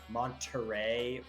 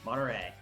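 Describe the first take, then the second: First: The T sound is clearly pronounced. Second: The T sound is dropped. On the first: The speaker calls it wrong. "we would never never say like" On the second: The speaker calls it right. "It's like"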